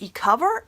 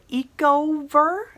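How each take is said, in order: First: "Ecover" said as ee-COVER; first pronunciation attempt. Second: "Ecover" said as EEK-oh-ver, drawn out; alternative pronunciation attempt. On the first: Reviewer guesses at a brand name, "Ecover" as ee-cover. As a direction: try "Ecover" as E plus the word cover. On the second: Reviewer offers another guess at the brand name, "Ecover" as eco-ver. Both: Shown as a demonstration. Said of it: "not sure exactly how to pronounce".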